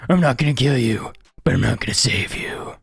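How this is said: It is said in a put-on gravelly voice.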